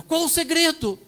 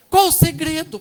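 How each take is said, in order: First: Said in the usual way. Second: Asked again, much louder and higher; louder repeat. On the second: Real, not acted. Loud: pastor presses the couple again, calling it out. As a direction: call it out so the whole church hears.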